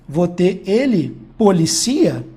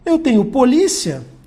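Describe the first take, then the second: First: The stress falls on the syllable ci. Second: The stress falls on the syllable li. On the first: It is a form of the verb to police. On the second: It is the noun meaning police.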